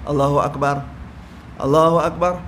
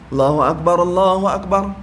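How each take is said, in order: First: There is a pause with a new breath between phrases. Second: The two phrases are joined without a pause.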